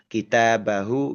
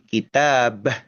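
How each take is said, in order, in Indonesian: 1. Kata itu diakhiri dengan bunyi vokal. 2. Kata itu berakhir dengan konsonan, vokalnya dihilangkan. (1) "kalau kita baca secara bersambung dengan kata setelahnya" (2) "kalau diberhentikan"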